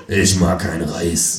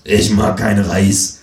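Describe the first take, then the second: First: Slow, lower deadpan line; dim Freundlich. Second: Slow, deadpan blurted line; dim Freundlich. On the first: Herr Freundlich repeating his non sequitur, slow lower deadpan. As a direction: repeat it slowly like a dim guest. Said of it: "sagt Herr Freundlich". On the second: Herr Freundlich blurting out of nowhere, slow deadpan voice. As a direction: blurt it slowly like a dim guest. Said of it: "sagt Herr Freundlich unvermittelt". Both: Acted.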